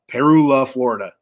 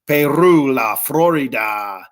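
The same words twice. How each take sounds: First: It is said with a hillbilly-style accent. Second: It is said with a Latino-style accent.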